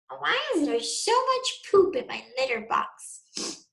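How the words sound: It is said in the stepsisters' put-on voice. The speaker calls it wrong. "Oops, wrong voice. That was meant for Zoe and Chloe"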